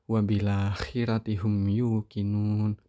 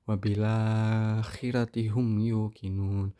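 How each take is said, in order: First: The lengthened vowel is held only briefly. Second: The lengthened vowel is held a medium time. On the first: "mad badalnya qasr" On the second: "mad badalnya tawasud"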